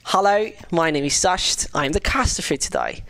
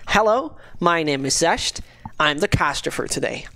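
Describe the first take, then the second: First: It is said in a British accent. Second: It is said in his normal accent.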